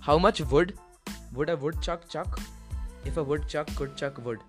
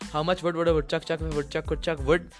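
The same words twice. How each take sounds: First: It is said slowly. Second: It is said fast.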